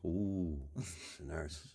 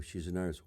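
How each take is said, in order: First: Suggestive ooh. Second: Said in the usual way. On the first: Shown as a demonstration. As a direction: lower and much softer, knowing coo. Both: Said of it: "Watch this".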